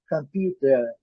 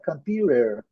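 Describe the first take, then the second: First: It is said in a British accent. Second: It is said in an American accent. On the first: "na pronúncia inglesa, britânica" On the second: "na pronúncia americana"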